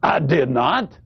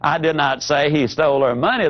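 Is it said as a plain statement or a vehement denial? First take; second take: vehement denial; plain statement. First: It sounds like a forceful, vehement denial. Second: It sounds like a plain, neutral statement.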